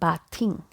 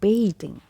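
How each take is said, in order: First: The first vowel sounds like the vowel in 'bath'. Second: The first vowel sounds like the vowel in 'bay'. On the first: The speaker calls it wrong. "it is not bathing" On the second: The speaker calls it right. "letter A has two sounds like A, so bay"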